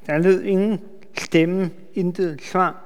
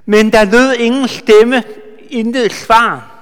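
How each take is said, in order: First: Soft echo. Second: Emphatic reading. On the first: Preacher quietly echoing the verse for the congregation, hushed. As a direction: repeat it softly, letting it sink in. Echoes verse softly after reading. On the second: Preacher reading the verse aloud to the congregation, emphatic. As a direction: read the verse out strong and ringing. Reads verse, then repeats it. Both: Shown as a demonstration.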